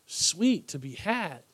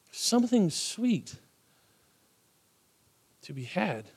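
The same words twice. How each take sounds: First: Savoring sweet. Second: Soft savoring. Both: Shown as a demonstration.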